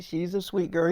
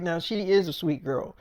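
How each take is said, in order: First: Said in the usual way. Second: "is" leaned on in agreement; low, soft line with "is" standing out; stress on "is". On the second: Retold or imitated. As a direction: concede it by stressing the word "is". Friend agrees, insisting on "is.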